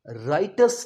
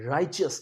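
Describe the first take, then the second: First: The middle consonant is a plain 't' sound. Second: The middle consonant is a 'ch' sound. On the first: The speaker calls it wrong. "So राइटस नहीं" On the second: The speaker calls it right. "राइचियस कहना है"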